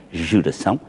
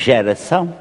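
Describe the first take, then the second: First: Geração with the first vowel reduced, almost swallowed; modern reduced pronunciation. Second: Geração with an open unstressed first vowel; old grave-accent pronunciation. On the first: Showing how everyone says it now, reduced geração. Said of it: "agora toda a gente diz". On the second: Recalling old spelling for colleagues, geração with open vowel. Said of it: "tínhamos acento grave". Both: Shown as a demonstration.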